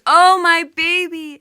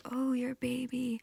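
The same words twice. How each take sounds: First: Wailing cry. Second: Soft high whisper, a gentle echo back. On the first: Goddess in the underworld wailing for her husband, loud keening wail. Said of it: "she's crying out". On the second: Bird creatures echoing the goddess's grief, soft whispered echo. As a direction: hush it back to her as a witness. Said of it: "And they say". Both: Acted.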